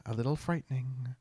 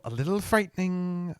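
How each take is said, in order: First: Uneasy half-whispered echo; a quiet, creeped-out repeat; softer, trailing off. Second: Said in the usual way. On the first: Real, not acted. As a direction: drop the repeat to a hushed murmur. Repeats phrase, second drops away.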